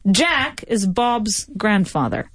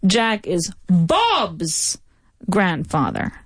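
First: The stress falls on the first name. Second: The stress falls on the second name. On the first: It prompts a question about who the subject is. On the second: It prompts a question about whose relative it is.

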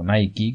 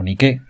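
First: The name is pronounced the English way. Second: The name is pronounced the Greek way. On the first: "como se pronuncia en inglés" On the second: "que es como se pronuncia en griego"

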